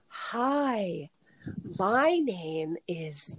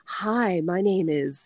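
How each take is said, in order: First: The phrase is spoken very slowly. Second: The phrase is spoken at a normal pace. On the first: The speaker calls it right. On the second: The speaker calls it wrong.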